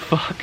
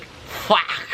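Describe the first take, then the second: First: Said in the usual way. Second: "Fuck" as a raspy, coughed-out "fahk"; imitated narrator's accent. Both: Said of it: "The way he pronounced the word".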